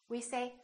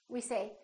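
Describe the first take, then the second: The two takes are said the same way.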